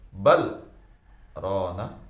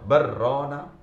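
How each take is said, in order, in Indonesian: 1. Huruf l dibiarkan terpisah dari r. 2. Huruf l digabung menjadi r ganda.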